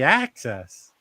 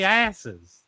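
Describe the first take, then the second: First: It is said in a standard accent. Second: It is said in a North Carolina accent.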